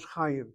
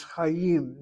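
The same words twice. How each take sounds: First: Chaim said as xa-yuh; wrong pronunciation. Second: Chaim with a throaty ch; correct pronunciation. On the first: Teacher showing the wrong way to say Chaim, softer. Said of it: "not Chaim". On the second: Teacher modeling the Sephardic Chaim with a throaty ch. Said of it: "the word pronounced is Chaim". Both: Shown as a demonstration.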